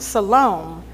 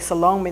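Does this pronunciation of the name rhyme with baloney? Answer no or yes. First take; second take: no; yes. First: The name does not rhyme with baloney. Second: The name rhymes with baloney. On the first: The speaker calls it right. "I guess that's how you say it" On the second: The speaker calls it wrong. "That's kind of like baloney"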